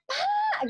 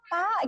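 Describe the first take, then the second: First: The call is raised and higher in pitch. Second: The call is calm and low in pitch.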